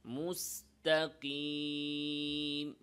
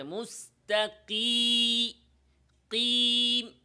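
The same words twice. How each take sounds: First: Slow even মুস্তাকিম, no pressure; natural relaxed ya. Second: মুস্তাকি- then loud high কিম, tongue pressed; wrong pressed ya. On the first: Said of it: "স্বাভাবিকভাবে". (স্বাভাবিকভাবে মুস্তাকিম) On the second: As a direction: hit কিম hard and high. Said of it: "স্বাভাবিকভাবে না বলে". (জিহ্বায় চাপ দিয়ে ভুল মুস্তাকিম) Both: Shown as a demonstration.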